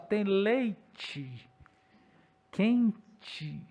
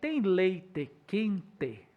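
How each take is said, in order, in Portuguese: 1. As vogais finais soam como 'ee'. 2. As vogais finais soam como um 'e' claro. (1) "Porque a gente fala" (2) "Quando alguém fala para você assim, ... Você fala, você é do interior"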